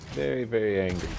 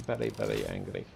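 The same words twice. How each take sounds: First: Said in the usual way. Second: Much lower, mock-grave repeat; deep mock voice. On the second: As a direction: drop the voice low to tease. Teasing the angry enemy.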